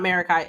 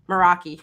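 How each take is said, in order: First: The word ends with an 'eye' sound. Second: The word ends with an 'ee' sound. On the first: The speaker calls it wrong. "I always say this wrong. It's not Marakai" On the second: The speaker calls it right. "It's Meraki, I think"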